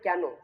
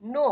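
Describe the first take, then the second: First: The word starts with a spoken k sound. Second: The word starts with an n sound. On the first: The speaker calls it wrong. "অনেকে কিন্তু উচ্চারণ করে কেন" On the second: The speaker calls it right. "সঠিক উচ্চারণটা কিন্তু নো হবে"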